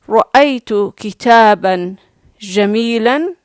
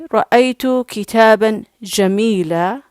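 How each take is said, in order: First: The last word ends with an n-sound. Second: The last word ends in a long vowel. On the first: "you did not mute the last letter when it has tanween" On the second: "this is the best pronunciation"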